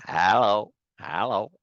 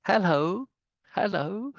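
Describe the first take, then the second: First: American "hello", open HAL-oh; American accent. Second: High English "hello" with a rising end; English-accented HEL-oh, pitched up. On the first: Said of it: "That's American. That's not English". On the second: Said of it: "That's not English". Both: Shown as a demonstration.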